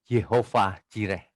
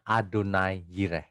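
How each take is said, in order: First: "Yehovah Jireh", the name read as Ye-ho-vah; common misreading. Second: "Adonai Jireh", the name read as A-do-nai; correct reading. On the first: Preacher showing how most people read the name, common misreading. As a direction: slowly sound out "Yehovah Jireh" as Ye-ho-fah Ji-reh. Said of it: "Ada orang-orang sebagian besar bacanya". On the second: Preacher teaching how the divine name is read, correct reading. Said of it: "Yang benar adalah bacanya". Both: Shown as a demonstration.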